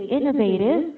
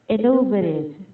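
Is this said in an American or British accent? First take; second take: American; British. First: It is said with an American accent. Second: It is said with a British accent.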